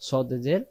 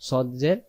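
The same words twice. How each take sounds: No difference in how they are said.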